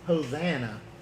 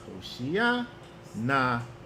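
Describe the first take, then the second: First: It is said with an 's' sound, anglicized. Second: It is said with an 'sh' sound, as two words. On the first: It is the familiar English rendering. The speaker calls it wrong. "you sound so English when you say Hosanna" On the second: It is the original two-word form. The speaker calls it right. "it's Hoshia na Yahweh"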